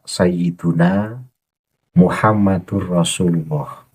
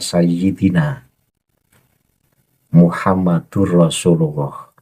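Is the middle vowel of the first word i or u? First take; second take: u; i. First: The first word has a u vowel before -na. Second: The first word has an i vowel before -na. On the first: The speaker calls it right. "Seharusnya tetap utuh dibaca" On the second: The speaker calls it wrong. "dibaca sayyidina"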